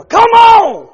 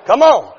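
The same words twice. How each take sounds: First: Much higher, louder exasperated yell; frustrated shout. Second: Said in the usual way. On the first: Retold or imitated. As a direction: yell at a dead van. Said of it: "hit the steering wheel". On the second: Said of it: "don't act too super spiritual".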